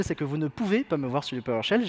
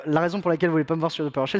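First: "pouvez" stressed to mark the punchline. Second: Said in the usual way. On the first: Shown as a demonstration. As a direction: lean on "pouvez" as the corrected word. Corrects voulez to pouvez, punchline.

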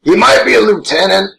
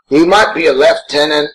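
First: Said in the usual way. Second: "lieutenant" said as "left-tenant", British style; British leftenant. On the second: Shown as a demonstration. Says the word two ways.

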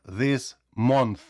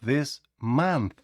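First: «this month» with a rounded O in «month»; wrong vowel. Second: «this month» with an open A in «month»; «month» like «mant», open A; correct vowel. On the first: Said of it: "Не кажіть". («this month» з круглим «О») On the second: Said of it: "а". («this month» з відкритим «А») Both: Shown as a demonstration.

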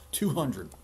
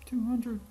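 First: Kingly demand. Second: Very high, loud disbelieving question; incredulous echo. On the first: Acted. King's demand, first take. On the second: Real, not acted. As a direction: squeak the number back in disbelief. Reader echoes the number in shock.

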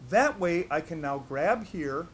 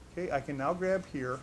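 First: That way I can now grab here said slowly, louder, that leaned on; slow emphasis. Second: Said in the usual way. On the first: Shown as a demonstration. Instructor slowing down so students catch the grab, emphatic. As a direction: spell it out slowly for the class. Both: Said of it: "Watch what I do".

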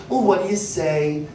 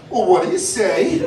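First: Said in the usual way. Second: Rising, teasing what do you say; playful scolding of a rude parent; mock reprimand. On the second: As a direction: turn the mom's line back on her sarcastically. Waiter mocking the mom back.

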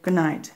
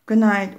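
First: Said in the usual way. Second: Put-on louder, brighter reply from the children; children saying good night back, raised; kids' good night. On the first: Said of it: "said Mom". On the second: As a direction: answer mom together, a bit louder. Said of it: "we said".

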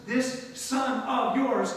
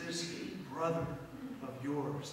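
First: "This son of yours" very slow and hard; contemptuous phrase. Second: "This brother of yours" lower and softer; tender phrase. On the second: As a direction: gently stress "brother". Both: Shown as a demonstration. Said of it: "You see the difference?".

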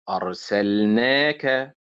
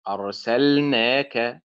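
First: Slow أرسلناك, stressed on نا; stress on long syllable. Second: Slow أرسلناك, stressed on سل; wrong early stress. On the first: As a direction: lean on نا in أرسلناك, then add the final ك. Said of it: "كأننا قلنا أرسلنا ثم الكاف". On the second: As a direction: punch سل in أرسلناك. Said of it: "وليست أرسلناك". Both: Shown as a demonstration.

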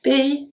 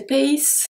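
First: Pays as pay-ee, ending on the vowel; correct silent S. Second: Pays with the final S sounded; overpronounced S ending on pays; wrong pronunciation of pays. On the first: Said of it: "The S at pays is not pronounced". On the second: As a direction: say pays as pay-eess, hissing the last letter. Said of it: "I don't say pays". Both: Shown as a demonstration.

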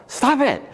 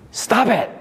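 First: High sharp yell of "Stop it!"; comic yell, much higher. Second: Sharp high "Stop it!"; mock comic yell; Bob Newhart snapping. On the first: Retold or imitated. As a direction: yell it like Bob Newhart. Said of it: "He would yell". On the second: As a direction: bark it at her like the psychiatrist. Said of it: "and he would say".

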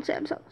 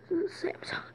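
First: Said in the usual way. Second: Samsung whispered softly as an echo; whispering. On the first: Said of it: "Samsung. (whispered repeat)". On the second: Shown as a demonstration. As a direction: whisper Samsung right after saying it. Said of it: "whispered repeat".

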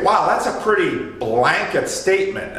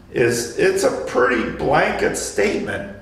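First: Mock surprise. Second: Said in the usual way. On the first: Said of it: "we say". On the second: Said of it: "what Marty reacted to".

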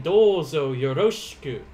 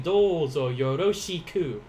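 First: "Douzo yoroshiku" with shi reduced to sh, yoroshku; blended shi. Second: "Douzo yoroshiku" with yo-ro-shi-ku fully sounded; full syllables. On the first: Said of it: "So I'm saying". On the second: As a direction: say "yoroshiku" with every syllable clear. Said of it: "instead of saying". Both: Shown as a demonstration.

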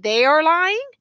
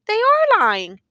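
First: "they are lying" climbing to a high end; questioning challenge. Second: "They are lying" high and loud, falling at the end; insistent answer. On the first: Prosecutor challenging the accused's story, "they are lying" rising. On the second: Accused insisting to the prosecutor, "They are lying" high, loud, final. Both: A narrator's reading.

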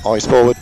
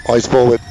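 The two takes are said the same way.

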